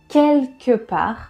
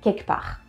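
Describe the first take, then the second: First: The L sound is pronounced. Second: The L sound is dropped.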